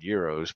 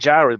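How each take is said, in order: First: The word begins with a Y sound. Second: The word begins with a hard G sound. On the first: The speaker calls it right. "you don't pronounce the G" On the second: The speaker calls it wrong. "they call them gyros"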